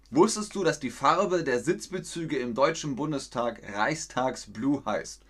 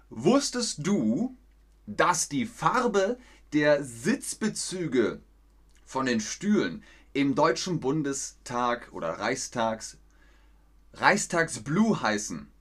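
First: Said in the usual way. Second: Slowly, each word spelled out for learners; slow, clear question. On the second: Shown as a demonstration. Teacher asking the chat slowly and carefully, slow clear reading. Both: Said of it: "Jetzt müsst ihr mit einem ganzen Satz antworten".

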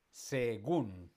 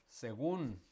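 First: Según split as se-GÚN; stress on GÚN. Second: Said in the usual way. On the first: Shown as a demonstration. Teacher showing final-syllable stress, Según split with GÚN stressed. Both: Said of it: "la fuerza está en la última".

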